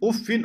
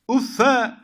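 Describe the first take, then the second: First: The word ends in -in, with nunation. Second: The word ends in a short -a vowel. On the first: "Teminli okumuşlar" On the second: "Vel fethu li tahfif uffe"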